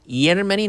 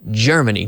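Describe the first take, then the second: First: The first sound is not a voiced 'j'. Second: The first sound is a voiced 'j'. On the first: The speaker calls it wrong. "We don't say Germany" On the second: The speaker calls it right. "The G, in this case, also like the J of uh, Jello or Jack"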